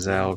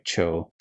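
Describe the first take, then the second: First: The name begins with a soft 'dj' sound. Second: The name begins with a 'ch' sound. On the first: The speaker calls it wrong. "I keep saying Zhao because of like Avatar" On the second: The speaker calls it right. "it's like Cho, like the Z H, I guess makes a ch sound"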